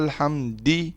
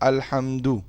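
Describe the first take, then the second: First: The word ends with an i vowel. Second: The word ends with an u vowel. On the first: The speaker calls it wrong. "अब ये गलत है" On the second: The speaker calls it right. "दाल के ऊपर पेश पड़ी ना"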